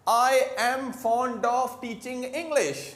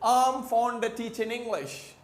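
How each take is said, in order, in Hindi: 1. शब्द 'of' पूरा और साफ़ बोला जाता है। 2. शब्द 'of' छोटा करके और जल्दी से आगे के शब्द के साथ मिलाकर बोला जाता है। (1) "हम लोग क्या बोल रहे हैं?" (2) "ब्रिटिश को कैसे बोलेंगे? ... इतने स्पीड में बोलते जाएंगे"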